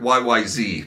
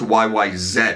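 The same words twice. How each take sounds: First: The last letter is said the American way, zee. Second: The last letter is said the Canadian way, zed.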